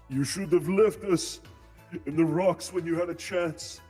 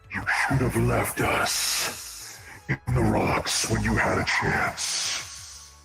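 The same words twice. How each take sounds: First: It is said without the monster's South American accent. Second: It is said in a terrifying South American accent.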